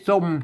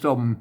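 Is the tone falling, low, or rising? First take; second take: rising; low. First: The syllable is said with a rising tone. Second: The syllable is said with a low tone. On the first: "สมเสียงจัตวา" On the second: "ใส่ไม่เอก"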